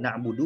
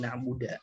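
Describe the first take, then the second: First: The final vowel after d is u. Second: The final vowel after d is a. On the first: The speaker calls it right. "mengubah harokat dal na'budu" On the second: The speaker calls it wrong. "menjadi na'buda"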